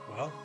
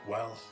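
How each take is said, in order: First: It is said in an ordinary, higher voice. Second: It is said in a deeper put-on voice. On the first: The speaker calls it wrong. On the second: The speaker calls it right.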